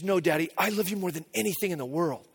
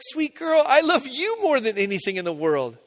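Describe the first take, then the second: First: Softly imitating a little girl's devotion; quiet, earnest one-upping from a child; insistent loving daughter. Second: Fond reply that starts high and settles; retold fatherly gush, topping the child; doting dad. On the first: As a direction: retell it low-key and softly. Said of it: "And she goes". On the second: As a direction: coo it back to a little daughter. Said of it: "And I was like".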